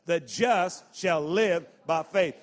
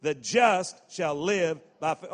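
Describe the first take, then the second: First: Louder and slower, with conviction; mean every word of it; said like you mean it. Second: Said in the usual way. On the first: Shown as a demonstration. Preacher urging the congregation to say it with conviction. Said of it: "say it like you mean it now". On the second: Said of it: "Say that part with me".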